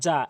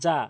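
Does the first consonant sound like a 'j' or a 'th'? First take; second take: j; j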